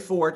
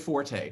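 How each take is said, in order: First: The word is said as one syllable. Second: The word is said as two syllables. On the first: This is the original, accurate pronunciation. "if I said fort in a conversation, it would be assumed that I was wrong, even though I was correct" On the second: This is the popular pronunciation that became accepted. "a mispronunciation becomes acceptable because so many people are using it"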